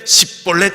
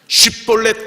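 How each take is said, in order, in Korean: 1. 그냥 s 소리로 시작해요. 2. sh 소리로 시작해요. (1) "십볼렛 이래요" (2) "십볼렛 그래야 되는데"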